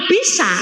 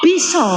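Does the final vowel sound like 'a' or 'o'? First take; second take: a; o. First: The word ends in an open 'a' vowel. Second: The word ends in a rounded 'o' vowel. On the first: This is how Banyumasan (ngapak) speakers say it. "Nek ngapak niku biasanya diakhiri a" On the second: This is how East Javanese speakers say it. "Nek nggen kula Jawa Timur niku diakhiri o"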